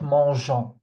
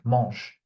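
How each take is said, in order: First: The word ends with an audible extra final syllable. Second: The word ends without a pronounced final vowel. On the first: The speaker calls it wrong. "because I hear this mistake a lot. Don't do it" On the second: The speaker calls it right. "you don't hear me saying anything"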